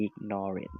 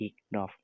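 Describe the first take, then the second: First: "ignorant" said slowly as ig-no-rant, three syllables with a final t; "ignorant" given as the correct reading, three syllables ig-no-rant. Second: "ignore" said as ig-nore, short, ending on the nore sound; the wrong reading "ignore", two syllables ig-nore. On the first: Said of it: "อ่านว่า ignorant". (อ่านคำว่า "ignorant" แบบถูก ช้าๆ อิก-นอ-เรินท์) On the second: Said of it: "ไม่ได้อ่านว่า ignore นะ". (อ่านคำว่า "ignore" แบบผิด เป็น อิก-นอร์) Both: Shown as a demonstration.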